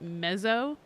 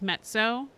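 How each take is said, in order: First: The double z sounds like a plain buzzing 'z'. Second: The double z sounds like 'ts', as in pizza. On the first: The speaker calls it wrong. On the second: The speaker calls it right.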